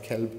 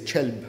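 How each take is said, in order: First: Standard pronunciation, starting with 'k'. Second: Fallahi Palestinian pronunciation, starting with 'ch'.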